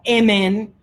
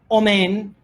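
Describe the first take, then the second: First: The word begins with a front e vowel. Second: The word begins with a rounded o vowel. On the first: "no emen" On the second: "no omen"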